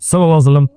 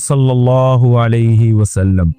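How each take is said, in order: First: The phrase is rushed and clipped short. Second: The phrase is said slowly and fully. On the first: The speaker is trying to save time. The speaker calls it wrong. "जो शॉर्ट कर देते हैं ना" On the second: The speaker is saying it with proper respect. The speaker calls it right. "पूरा सल्लल्लाहु अलैहि वसल्लम तमीज से बोलना चाहिए"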